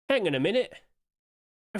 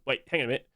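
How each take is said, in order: First: Surprised. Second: Said in the usual way. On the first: Real, not acted. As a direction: catch yourself in disbelief.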